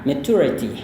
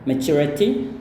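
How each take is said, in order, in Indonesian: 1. Bunyi t adalah bunyi t biasa. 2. Bunyi t seperti 'chu'. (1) "atau bahkan bisa pakai t aja ya" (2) "Jadi pakai chu"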